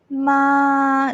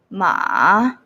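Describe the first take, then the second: First: The pitch stays level and steady. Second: The pitch sits at the bottom range. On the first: "this one is a flat" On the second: "very low"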